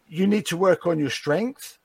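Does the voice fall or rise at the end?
rise. The voice rises at the end. The speaker is asking. "that sounds like a question"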